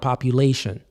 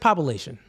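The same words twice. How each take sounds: First: The word is said slowly. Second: The word is said quickly. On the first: "you got to slow it down" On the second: "You say it fast"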